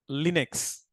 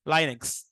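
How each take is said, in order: First: "Linux" with a short "ee" sound, LEE-nux, spoken softly; "Linux" pronounced LEE-nux, first syllable like "lee". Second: "Linux" with a long "eye" sound, LIE-nux; "Linux" pronounced LIE-nux, first syllable like "lie". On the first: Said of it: "which one is correct?". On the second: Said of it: "how you gonna pronounce that one?". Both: Shown as a demonstration.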